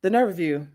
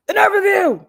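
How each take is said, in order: First: Said in the usual way. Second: High, loud diva exclaim; sassy outrage. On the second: Retold or imitated. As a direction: throw shade, loud and high. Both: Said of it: "oh, I was about to say".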